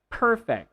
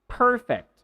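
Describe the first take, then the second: First: It begins with an unvoiced p sound. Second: The same.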